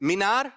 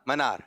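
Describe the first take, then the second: First: The first vowel is a long ee sound. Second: The first vowel is a short a sound. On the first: "कुछ लोग कह रहे हैं मीनार" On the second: "कुछ लोग कह रहे हैं मनार"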